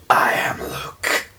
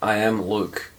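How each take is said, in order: First: It is said in a put-on deep, gruff voice. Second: It is said in a natural speaking voice.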